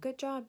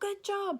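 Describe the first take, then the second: First: It is said in a flat, monotone voice. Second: It is said with lively, excited energy. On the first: The speaker calls it wrong. "if you are very monotone in your voice" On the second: The speaker calls it right. "Make sure you're super excited and vocal"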